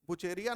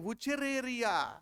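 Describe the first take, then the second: First: The middle 're' syllable is left out. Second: The middle 're' syllable is clearly said. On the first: The speaker calls it wrong. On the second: The speaker calls it right.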